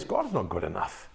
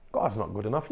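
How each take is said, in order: First: Low, soft sulky mutter; grumbling complainer. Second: Said in the usual way. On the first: Retold or imitated. The murmuring people complaining about God, low sulky mutter. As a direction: grumble it under your breath like a sulking people. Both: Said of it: "they were simply saying this".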